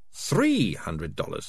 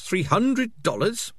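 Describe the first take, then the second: First: Said in the usual way. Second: Three hundred dollars? leaps high on hundred, slow and incredulous; shocked question. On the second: A narrator's reading. Morris outraged at the fee, rising into a high shocked question. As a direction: squeak out "hundred" in disbelief. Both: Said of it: "repeated, then asked".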